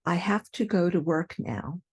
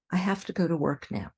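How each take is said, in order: First: I have to go to work now said carefully; full have to. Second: I have to go to work now run fast with have to as hafta; quick hafta. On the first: Teacher gives the careful sentence. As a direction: keep have to clear. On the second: Teacher's quick relaxed version. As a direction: rattle it off, hafta. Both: Shown as a demonstration. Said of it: "Here are a few more".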